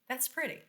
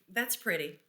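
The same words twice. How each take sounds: First: It sounds excited and admiring. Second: It sounds unimpressed and doubtful.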